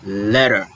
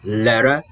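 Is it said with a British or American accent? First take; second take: American; American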